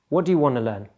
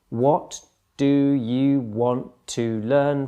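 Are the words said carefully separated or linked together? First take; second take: linked; separated. First: The words run together with sounds dropped. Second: Each word is pronounced separately and carefully. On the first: The speaker calls it right. "the D and the Y get smudged together... the T is dropped" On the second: The speaker calls it wrong. "Each word in this kind of greenhouse English is, a, is pronounced and articulated very carefully"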